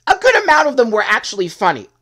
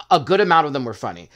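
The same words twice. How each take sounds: First: Loud, high emphatic insistence. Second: Said in the usual way. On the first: Real, not acted. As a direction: push it out loud and high, stressing GOOD. Stresses the point, then repeats it calmer.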